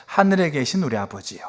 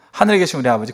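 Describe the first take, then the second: First: Unhurried, gentle call to the Father; prayerful address. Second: Quick run-through of the prayer; rote recitation. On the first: Jesus teaching the disciples to pray, reverent and unhurried. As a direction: speak it as prayer, taking time. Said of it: "예수님이 기도하세요". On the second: Congregant asked to recite the Lord's Prayer, by rote. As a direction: reel it off as a memorised formula. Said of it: "예수님은 기도문을 가르치는 게 아니라 기도를 가르치셨어요". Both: Retold or imitated.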